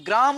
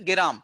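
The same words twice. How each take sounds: First: Said in the usual way. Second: গেরাম with an extra e sound breaking the gr cluster; folk pronunciation gerām. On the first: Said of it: "গ্রাম শব্দটিকে অনেকে একটু পরিবর্তন করে বলছেন". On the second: Shown as a demonstration. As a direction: say গেরাম as two easy syllables, ge-ram. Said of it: "অনেকে একটু পরিবর্তন করে বলছেন".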